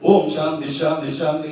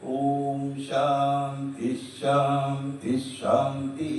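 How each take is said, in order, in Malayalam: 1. ഈ വാക്യം വേഗത്തിലും ശക്തിയോടെയുമാണ് ചൊല്ലുന്നത്. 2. ഈ വാക്യം സാവധാനത്തിലും ശാന്തമായുമാണ് ചൊല്ലുന്നത്. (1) "എന്തിനാ വേഗം?" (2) "ശാന്തമായിട്ട് പറയാം"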